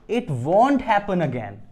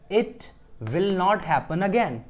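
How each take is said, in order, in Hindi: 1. 'Will not' एक शब्द में contract होता है: 'won't'। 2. 'Will not' दो पूरे शब्दों की तरह बोला जाता है।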